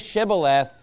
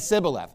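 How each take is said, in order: First: The word begins with a 'sh' sound. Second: The word begins with an 's' sound. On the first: This is how an insider says it. The speaker calls it right. "He didn't say Shibboleth" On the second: This marks the speaker as an outsider. The speaker calls it wrong. "He said Sibboleth"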